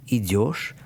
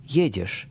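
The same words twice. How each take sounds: First: Идёшь with the stress on the last syllable, ёшь; end stress. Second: Едешь stressed on the first syllable, е; stem stress. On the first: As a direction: lean on the ending of идёшь, ёшь. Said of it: "end stress of idu, идёшь". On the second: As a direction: hit the first syllable of едешь and keep the ending light. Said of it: "the stem stress for jedu, едешь". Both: Shown as a demonstration.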